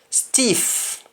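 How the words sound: The word begins with an s sound. "words that start with S T"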